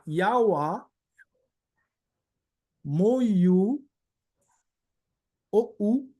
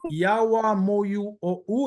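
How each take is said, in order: First: The phrase is whistled instead of spoken. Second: The phrase is spoken in a normal voice. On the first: "E assobiando seria" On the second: "esse é falando no Ayampi"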